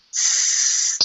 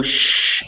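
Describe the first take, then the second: First: "S" as a long voiceless hiss; S sound. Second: "sh" as a hush with tongue slid back; sh sound. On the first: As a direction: hold the "S" with tongue near the teeth. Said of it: "if you make an S sound". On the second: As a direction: contrast "sh" with S, tongue on the hard roof. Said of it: "your tongue slides further back". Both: Shown as a demonstration.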